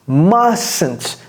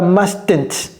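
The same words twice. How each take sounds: First: The first T sound is left out. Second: The first T sound is clearly pronounced. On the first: The speaker calls it right. "Ne prononcez pas ce T" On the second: The speaker calls it wrong. "Ne dites pas mustn't"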